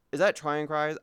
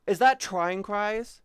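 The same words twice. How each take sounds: First: Said in the usual way. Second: Louder, slow surprised ask; sudden recognition of a name; excited guess at who the streamer is; surprised question. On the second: Real, not acted.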